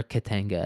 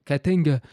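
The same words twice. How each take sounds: First: Said in the usual way. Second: Put-on Katanga said high and loud, heavy African accent; African militia man voice. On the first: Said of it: "what Katanga sounds like to me". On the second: Host imitates an African militia man saying Katanga, heavy African accent. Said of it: "my African militia man voice".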